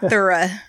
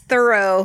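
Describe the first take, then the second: First: The word is said in an Australian accent. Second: The word is said in an American accent. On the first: This is how the other person said it. The speaker calls it wrong. "not thorough" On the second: This is how it is said locally. The speaker calls it right. "it's thorough where we are"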